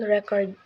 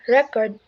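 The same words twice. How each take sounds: First: The stress is on the second syllable. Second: The stress is on the first syllable.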